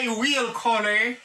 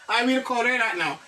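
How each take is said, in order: First: Slow, stressing will; slow model sentence. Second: Said in the usual way. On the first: Shown as a demonstration. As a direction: say it slowly with weight on will. (dousman, fòs sou will)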